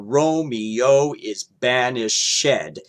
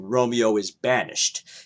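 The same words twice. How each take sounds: First: The ending of banished is a separate syllable. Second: The ending of banished is not a separate syllable. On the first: "they'll keep the E in if they want ed pronounced" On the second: "as opposed to"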